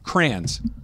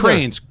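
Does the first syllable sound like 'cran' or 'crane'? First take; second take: cran; crane. First: The first syllable sounds like 'cran'. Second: The first syllable sounds like 'crane'. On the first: The speaker calls it right. "Like cranberry" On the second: The speaker calls it wrong. "Not cranes"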